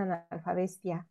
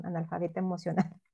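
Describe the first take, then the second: First: "analfabestia" dicho como chiste, con "bestia" al final; joking slip. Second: Said in the usual way. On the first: Shown as a demonstration. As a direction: juego de palabras intencional con "analfabestia". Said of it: "perdón, analfabeta emocional". ("analfabestia" dicho en broma, como si fuera un lapsus) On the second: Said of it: "perdón".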